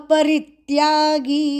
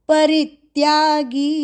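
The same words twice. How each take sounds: Both takes have the same delivery.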